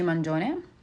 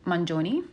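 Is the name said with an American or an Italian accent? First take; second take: Italian; American. First: The name is said with Italian pronunciation. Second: The name is said with American pronunciation. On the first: "is actually pronounced" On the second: "I just pronounced it in an Americanized way"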